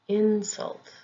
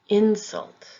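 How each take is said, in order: First: The stress is on the first syllable. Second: The stress is on the first syllable.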